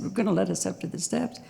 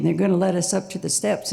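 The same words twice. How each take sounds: First: Softer echo question, rising at "steps". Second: Said in the usual way. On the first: Retold or imitated. Checking the negotiator's news, softer questioning rise on "steps". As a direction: repeat it back quietly, lifting the end on "steps".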